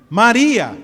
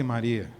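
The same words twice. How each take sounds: First: Firm call, a little louder; calling out her name. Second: Much lower and softer, a hesitant question. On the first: Pastor shows Jesus calling Mary firmly. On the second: Pastor tries a soft questioning Jesus calling Mary. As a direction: ask her name gently, almost unsure. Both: Shown as a demonstration. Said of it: "será que ele falou assim".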